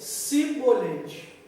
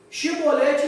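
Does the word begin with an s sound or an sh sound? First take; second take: s; sh. First: The word begins with an s sound. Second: The word begins with an sh sound. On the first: The speaker cannot say the password. The speaker calls it wrong. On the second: The speaker can say the password. The speaker calls it right.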